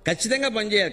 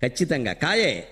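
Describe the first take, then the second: First: "ఖచ్చితంగా" begun with an aspirated kh; wrong aspirated kh. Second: "ఖచ్చితంగా" begun with a plain unaspirated k. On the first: Preacher shows the common mistake: aspirated "ఖచ్చితంగా". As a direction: say "ఖచ్చితంగా" with a breathy kh sound. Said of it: "ఖచ్చితంగా అనకూడదండి, తప్పు అది". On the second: Preacher corrects the word: plain k in "ఖచ్చితంగా". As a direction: say "ఖచ్చితంగా" with a clean k, no breath. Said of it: "కకారంలో కడవలో క". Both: Shown as a demonstration.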